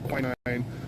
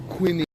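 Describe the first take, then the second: First: It is said in an American way. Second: It is said in a British way.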